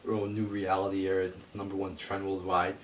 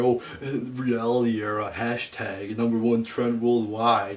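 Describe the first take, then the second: First: Lightly mocking, near plain voice; mild mocking quote. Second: Louder, higher, slow mocking sing-song; mock the hyped fans, drawn out. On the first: Quoting fans' tweets with a light mocking tone. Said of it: "I see people tweeting out this". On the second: Mocking Twitter fans hyping the reality era, loud sing-song. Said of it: "everybody's going, you know, crazy on Twitter".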